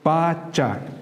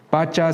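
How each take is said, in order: First: The a vowel is drawn out long. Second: The a vowel is said short.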